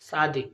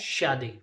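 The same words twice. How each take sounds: First: It is said the casual, everyday way. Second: It is said the careful, standard way. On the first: The speaker calls it wrong. "जो कि हम आम तौर पर बोलते हैं" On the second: The speaker calls it right. "लेकिन वो होता है शादी"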